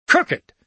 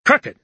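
First: Even higher, loud sputtering repeat; choking on fury; lost for words, spluttering; choked outrage. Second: High, loud indignant cry; sputtering, choked with outrage; outraged exclamation. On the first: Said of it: "He could only repeat the word". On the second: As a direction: explode at the very idea. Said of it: "exclaimed Dickinson". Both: A narrator's reading.

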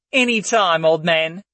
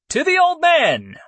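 First: Cheeky quip. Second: High, loud cheer; cheering toast. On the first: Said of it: "Layla quipped with a cheeky grin". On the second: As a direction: raise the glass and cheer. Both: A narrator's reading.

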